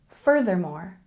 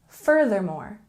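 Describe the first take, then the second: The two takes are said the same way.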